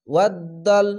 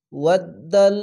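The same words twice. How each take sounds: The two takes are said the same way.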